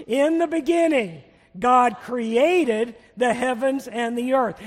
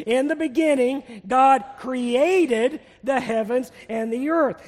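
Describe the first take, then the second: First: Slow, louder group recitation; leading recitation. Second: "created" drawn out and hit harder; stress on CREATED. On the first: Preacher leads congregation in the opening verse, leading recitation. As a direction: lead the room in saying it, slow and strong. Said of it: "We're gonna say it together". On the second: Preacher has congregation say the verse again, stress on "created". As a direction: lead the verse slowly, leaning on "created". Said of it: "put the emphasis on the word created". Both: Shown as a demonstration.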